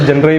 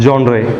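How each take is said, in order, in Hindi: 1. यह स्पेलिंग के हिसाब से पढ़ा जाता है, शुरुआत में छोटे 'jun' की आवाज़ के साथ। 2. यह 'jon' से शुरू होता है और 'ray' पर खत्म होता है। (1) "स्पेलिंग अगर आप लोग पढ़ेंगे तो जनरे ही पढ़ेंगे" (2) "पर प्रोनाउंस कैसे करना है?"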